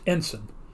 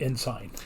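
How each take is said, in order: First: It is said with an American pronunciation. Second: It is said with a British pronunciation. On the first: "in the United States, E N S I G N is pronounced ensign" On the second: "not ensign"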